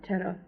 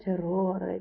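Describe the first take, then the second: First: Terror said the English way, no final e; plain English terror; English pronunciation. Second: Terrore with rolled r and final e; Italian pronunciation. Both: Shown as a demonstration. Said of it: "not terror".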